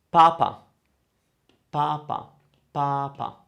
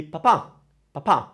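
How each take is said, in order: First: Papa said evenly, stress on the first pa; papa like pa twice; papa, Pope. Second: Papa with the last a stressed; stress on last syllable. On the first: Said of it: "like saying pa twice". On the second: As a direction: put the weight on the final a of papa. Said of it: "With the accent". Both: Shown as a demonstration.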